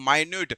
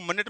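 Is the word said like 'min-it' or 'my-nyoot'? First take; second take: my-nyoot; min-it. First: It sounds like 'my-nyoot', stress on the second syllable. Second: It sounds like 'min-it', stress on the first syllable. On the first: It means very small. The speaker calls it right. "इसे क्या पढ़ोगे? माइन्यूट" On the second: It names the unit of time on a clock. The speaker calls it wrong. "इसको मिनट मत पढ़ना"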